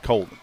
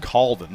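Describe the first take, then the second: First: Colvin with a long "oh" vowel; rejected name pronunciation. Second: Colvin with an open "aw" vowel; corrected name pronunciation. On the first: Sportscaster rejecting a wrong surname, Colvin said as "COAL-vin". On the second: Sportscaster clarifying a player's surname, Colvin said as "CAWL-vin". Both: Shown as a demonstration. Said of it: "not Colvin".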